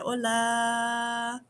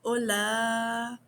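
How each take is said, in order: First: The final a vowel is drawn out long. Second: The final a vowel is drawn out long.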